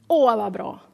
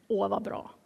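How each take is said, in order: First: Louder, heartfelt "Åh" up front; emphatic approval. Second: Soft, low-key satisfied reply; quiet approval. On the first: John repeats his approval to disciples, louder and emphatic. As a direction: lean firmly on "Åh". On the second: John hears Jesus baptizes more, quietly pleased. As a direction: approve softly, almost to yourself. John's first, soft answer. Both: Retold or imitated.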